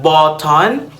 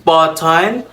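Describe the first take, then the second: No difference in how they are said.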